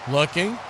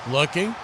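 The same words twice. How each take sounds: The two takes are said the same way.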